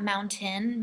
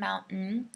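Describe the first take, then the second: First: The T in mountain is clearly pronounced. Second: The T in mountain is dropped. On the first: The speaker calls it wrong. "not mountain" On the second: The speaker calls it right. "the T is taken out"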